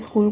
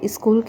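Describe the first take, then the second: First: The word begins directly with the 's' sound. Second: An extra 'i' vowel is added before the 's'. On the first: The speaker calls it right. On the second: The speaker calls it wrong.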